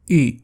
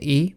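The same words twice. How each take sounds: First: The vowel is said with rounded lips. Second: The vowel is said with spread lips. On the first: This is how the letter was said in ancient times. "Με τα χείλη τους θα σχημάτιζαν κύκλο" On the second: This is how the letter is said today. "σήμερα προφέρεται"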